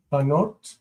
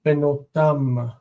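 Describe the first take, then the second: First: Banot with the first syllable said in full. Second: Benotam with the first syllable reduced, be- nearly swallowed. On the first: Teacher models the full form Banot before reducing it. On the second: Teacher models how benotam shortens its first syllable. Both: Shown as a demonstration. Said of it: "The first syllable becomes distant and reduces".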